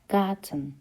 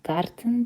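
First: The r is pronounced like a vowel sound. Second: The r is pronounced as a clear consonant. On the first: The speaker calls it right. "A, E şeklinde okunur. ... Garten şeklinde dinliyoruz" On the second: The speaker calls it wrong. "Garten değil"

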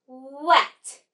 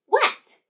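First: The word is stretched out slowly, sound by sound. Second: The word is said quickly, all in one go. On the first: "Blend with me" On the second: "Now say it in a snap"

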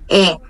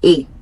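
First: The vowel is said with an open sound. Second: The vowel is said with a closed sound. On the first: The speaker calls it wrong. "eles não pronunciam E" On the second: The speaker calls it right. "a pronúncia da letra E é mais fechada"

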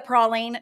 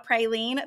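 First: It is said with the Cajun-influenced pronunciation. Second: It is said with the common Oklahoma pronunciation. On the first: This is the speaker's own regional usage. The speaker calls it right. "I have Cajun influence in my life, so it's a praline" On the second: This is how people around the speaker say it. The speaker calls it wrong. "not a praline. But I know in Oklahoma, everyone says praline"

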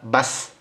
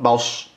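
First: The s is said as a plain, light sound. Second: The s is said as an emphatic, heavy sound. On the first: The speaker calls it right. "Bas, not baus" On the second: The speaker calls it wrong. "not baus"

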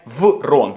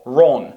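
First: The word begins with a w sound. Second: The word begins with an r sound. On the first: The speaker calls it wrong. "Це не врон" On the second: The speaker calls it right. "це ро"

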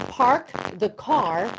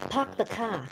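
First: The R sounds are clearly pronounced. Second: The R sounds are dropped. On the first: The speaker calls it right. "So you park the car" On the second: The speaker calls it wrong. "you don't park the car"

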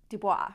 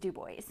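First: Dubois is said the widely used way. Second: Dubois is said the southern Indiana local way. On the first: This is how most of the world says it. "for the majority of the world, that's Dubois" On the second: This is how locals in southern Indiana say it. "For us, it was Dubois"

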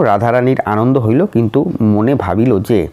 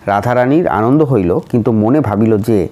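No difference in how they are said.

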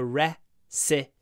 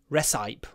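First: It is said the usual way, not as spelled. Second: It is said the way the spelling suggests. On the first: The speaker calls it right. "but we call it a recipe" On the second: The speaker calls it wrong. "It looks like it should be recipe"

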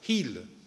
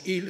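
First: The word starts with an audible breathy h sound. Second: The word starts directly with the vowel, no h. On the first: This is how it is said in the north of the country. "en el norte del país todavía pronuncian la H" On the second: This is how it is said in the south of the country. "En el sur del país decimos hil, sin H"

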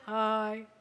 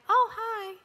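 First: The greeting is said flat and low. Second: The greeting has a bit more energy.

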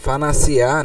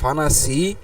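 First: The word is said with its full final syllable. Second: The word is said without its final syllable. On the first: The word is read without stopping on it. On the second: The reader stops on the word.

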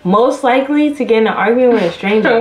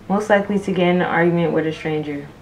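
First: It is read noticeably louder. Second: It is read at a normal volume.

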